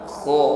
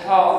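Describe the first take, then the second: First: The consonant is a thick, raspy throat sound. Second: The consonant is a clean, breathy h. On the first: The speaker calls it right. "Kha tebal" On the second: The speaker calls it wrong. "Jangan bersih ha"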